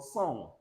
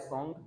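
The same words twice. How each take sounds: First: "song" ending on ng alone; "song" as the correct model; silent g. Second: "song" ending in a hard g; "song" mispronounced as song-g; wrong sounded g. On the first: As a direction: finish "song" on the nasal, no g. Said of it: "but song". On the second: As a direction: add an audible g to "song". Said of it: "No word like song". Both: Shown as a demonstration.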